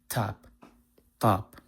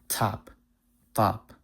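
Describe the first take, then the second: No difference in how they are said.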